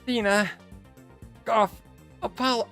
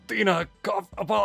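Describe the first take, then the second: First: It is said in an exaggerated joke voice. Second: It is said in the character's natural voice.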